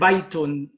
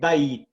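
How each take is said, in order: First: The word ends with an added -un sound. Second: The word ends sharply on a bare t. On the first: "with the tanween at the ending" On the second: "you will imagine there is a sukoon on it, and you say bayt"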